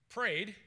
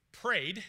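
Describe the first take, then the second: No difference in how they are said.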